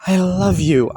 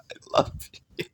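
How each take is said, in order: First: Said in the usual way. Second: Breathy whisper with no voice, "you" leaned on; hushed secret whisper of "I love you". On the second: Shown as a demonstration. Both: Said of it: "saying it or hearing you say it".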